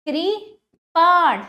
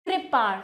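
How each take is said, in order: First: कृपाण very slow, कृ... then loud long पाण; broken into syllables. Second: Said in the usual way. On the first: Shown as a demonstration. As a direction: stretch and split कृपाण before पाण. (कृपाण को तोड़कर, पाण पर ज़ोर) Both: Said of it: "तोड़कर पहले".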